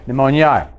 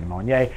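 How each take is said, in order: First: Pneumoniae firmly ending in an "eye" sound; self-corrected pronunciation. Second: Low, softer pneumoniae ending in "ay"; slipped pronunciation. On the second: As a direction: catch yourself saying pneumoniae like "nay". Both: Shown as a demonstration. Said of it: "Now I'm saying pneumoniae".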